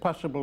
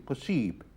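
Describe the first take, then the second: First: It is pronounced with English sounds. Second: It is pronounced with French sounds. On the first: "Words in English ending in ideally, like possible" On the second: "in French is pronounced ib, like possible would be possible"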